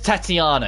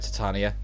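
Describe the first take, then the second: First: The name is said as Tatiana. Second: The name is said as Titania. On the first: The speaker calls it right. "It's Tatiana" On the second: The speaker calls it wrong. "it's not Titania"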